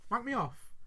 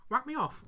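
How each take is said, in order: First: Mild acted disbelief; taken-aback question. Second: Slightly raised, coaxing proposition; acted request. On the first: Other dad answering the proposition, taken-aback question. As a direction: echo it back as a question. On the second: One dad propositioning the other, acted request. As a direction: put it to him as a request. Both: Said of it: "I'm gonna do the scene".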